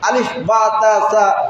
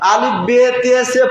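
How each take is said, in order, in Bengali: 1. বর্ণের নামগুলো 'a' স্বরধ্বনি দিয়ে শেষ হয়। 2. বর্ণের নামগুলো 'e' স্বরধ্বনি দিয়ে শেষ হয়। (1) "শুদ্ধ করে উচ্চারণ করলে" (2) "সেটা স্পষ্ট ভাবে আপনি উচ্চারণ করতে পারছেন না"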